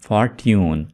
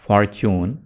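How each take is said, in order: First: The middle consonant is a 't' sound. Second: The middle consonant is a 'ch' sound. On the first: The speaker calls it wrong. "ना के फॉर्ट्यून" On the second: The speaker calls it right. "इसको आप पढ़ेंगे फॉर्च्यून"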